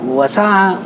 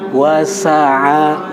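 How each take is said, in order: First: The word is said hurriedly with shortened vowels. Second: The word is said slowly with even vowels. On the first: It sounds like a different word. The speaker calls it wrong. "Jadi terlalu buru-buru sinya" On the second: It keeps the word's intended root. The speaker calls it right. "bacanya pelan-pelan aja"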